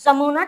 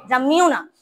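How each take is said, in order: First: "যমুনা" with a pure oo, no glide; plain-u pronunciation. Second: "যমুনা" with a y-glide before the u; glided pronunciation. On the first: Teacher approving a form for pupils, "যমুনা" as ja-moo-na. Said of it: "ঠিক আছে". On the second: Teacher showing a variant to pupils, "যমুনা" as ja-myu-na. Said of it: "উচ্চারণ করতে গেলে এখানে যমুনা হয়ে যায়". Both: Shown as a demonstration.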